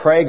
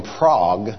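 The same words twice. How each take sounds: First: "Prague" as the Oklahoma town says it, Praig; Oklahoma pronunciation of Prague. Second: "Prague" with the vowel of father; "Prague" as the Czech capital, Prahg; Czech city pronunciation. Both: Shown as a demonstration. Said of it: "they say things different in Oklahoma".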